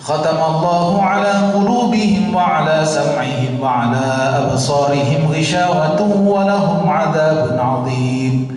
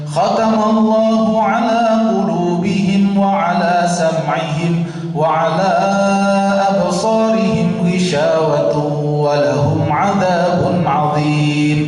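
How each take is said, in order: First: It is recited at a quick pace. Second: It is recited at a slower pace. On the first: A page takes under two minutes. "kalau nada kayak saya pertama tadi itu nggak sampai dua menit" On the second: A page takes three minutes. "Nada yang kedua itu tiga menit"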